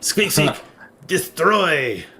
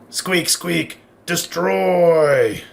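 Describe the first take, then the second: First: It is said with a French accent. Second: It is said without a French accent. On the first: The speaker calls it right. "with a French accent" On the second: The speaker calls it wrong. "it says"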